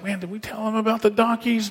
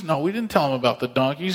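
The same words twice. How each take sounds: First: Higher-pitched, baffled acted question; puzzled question. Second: Quick, matter-of-fact acted reply; dismissive answer. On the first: Man asks his companion about the donkeys, puzzled. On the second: Companion answers about the donkeys, quick and matter-of-fact. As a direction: answer the puzzled companion briskly.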